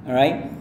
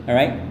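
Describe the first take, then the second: No difference in how they are said.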